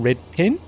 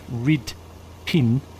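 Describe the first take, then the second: First: It is said in an Australian accent, rising. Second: It is said in a New Zealand accent.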